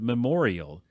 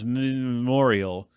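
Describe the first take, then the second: First: The vowel after the first m is pronounced. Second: The vowel after the first m is dropped. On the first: The speaker calls it right. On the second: The speaker calls it wrong.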